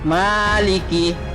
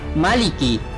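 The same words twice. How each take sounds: First: The first vowel is drawn out long. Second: The first vowel is short. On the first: The speaker calls it wrong. "bukan maliki. Salah" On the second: The speaker calls it right. "mimnya itu pendek sehingga dibaca maliki"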